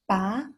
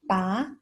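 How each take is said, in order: First: The syllable carries the rising second tone. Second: The syllable carries the rising second tone.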